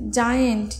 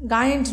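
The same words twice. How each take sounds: First: জায়েন্ট said with j as in jam; correct pronunciation. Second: গায়েন্ট with a hard g sound, shown as the mistake; wrong pronunciation. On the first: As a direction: say জায়েন্ট starting with j, not g. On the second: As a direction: say গায়েন্ট with a hard g to show the error. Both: Shown as a demonstration. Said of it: "গায়েন্ট নয়".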